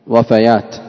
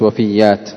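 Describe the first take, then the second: First: The vowels follow the pattern of fatayat. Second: The vowels do not follow the pattern of fatayat. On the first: The speaker calls it right. "وفيات لأنها جمع وفاة، مثل فتاة" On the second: The speaker calls it wrong. "وليست وفيات"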